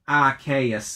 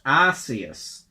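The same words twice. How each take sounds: First: The first syllable does not sound like arse. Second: The first syllable sounds like the word arse. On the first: This pronunciation avoids a rude word. The speaker calls it right. "Just pronounce it Arceus then" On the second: This is the original pronunciation. The speaker calls it wrong. "originally it was going to be pronounced Arceus"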